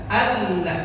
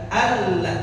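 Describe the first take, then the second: The two takes are said the same way.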